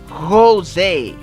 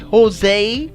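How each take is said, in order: First: The name is said with a Spanish pronunciation. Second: The name is said with an American pronunciation. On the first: "if you pronounce it in uh, in Spanish, that would be Jose" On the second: "Americans do say Jose"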